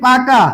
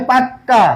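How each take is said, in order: First: Said in the usual way. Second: পাক্কা said with a long held double k; doubled k. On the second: Shown as a demonstration. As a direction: stretch the k in পাক্কা, then drop onto the final a. (পাক্কা শব্দে ক দ্বিত্ব করে টেনে বলা) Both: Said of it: "এটা কি হবে?".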